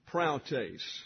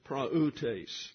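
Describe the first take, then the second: First: The vowel pair is merged into one 'ow' sound. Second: The vowel pair is split into two syllables. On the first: The speaker calls it wrong. "the tendency is to pronounce this praeutes" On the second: The speaker calls it right. "but it's two syllables"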